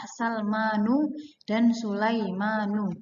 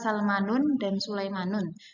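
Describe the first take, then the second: First: Each name ends in a plain vowel without n. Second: Each name ends in a vowel followed by n. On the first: The speaker calls it right. "yang benar adalah" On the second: The speaker calls it wrong. "Tidak tidak bisa"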